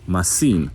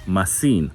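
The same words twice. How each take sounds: First: It is said with a Greek accent. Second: It is said with a Greek accent.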